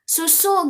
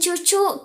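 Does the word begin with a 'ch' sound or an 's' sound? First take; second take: s sound; ch sound. First: The word starts with an 's' sound. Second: The word starts with a 'ch' sound. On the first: It is the clear, correct articulation. The speaker calls it right. "padahal yang jelasnya susu" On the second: A young child who cannot yet articulate clearly says it. The speaker calls it wrong. "anak kita belum jelas mengucapkan artikulasi dengan benar"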